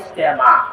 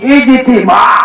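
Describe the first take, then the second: First: The middle vowel sounds like e. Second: The middle vowel sounds like i. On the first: This is the easier, commonly used form. "সহজে লেগে কয়" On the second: This is the proper, correct form. "এটা হইল সহি শুদ্ধ নাম"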